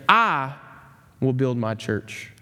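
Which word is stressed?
I. The word "I" carries the stress.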